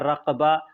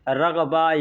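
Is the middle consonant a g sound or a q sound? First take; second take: q; g. First: The middle consonant is a q sound. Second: The middle consonant is a g sound. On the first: This follows the written letter. "ऐसे बड़ा काफ से लिखा हुआ है" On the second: This is how Arabs commonly say it. "अरबी लोग जो हैं वो काफ को ग के तरह से बोलते हैं"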